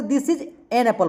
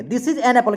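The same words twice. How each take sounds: First: "This is an apple" read slowly with an unstressed; unhurried everyday reading, an light; slow normal read. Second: Said in the usual way. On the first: Shown as a demonstration. Teacher modelling the normal article. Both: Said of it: "क्योंकि normal बोलना होता है".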